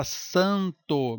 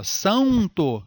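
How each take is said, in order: First: "santo" com ã no mesmo nível, sem ditongo; vogal nasal pura. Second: "Santo" com ditongo, sãun-to, mais agudo; pronúncia errada. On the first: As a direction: segure a nasal de "santo" parada. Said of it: "mesmo nível". ("santo" sem soltar o N) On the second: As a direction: deslize a nasal de "Santo" até um U. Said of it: "Não fala". ("Santo" exagerado, com semivogal U no meio) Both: Shown as a demonstration.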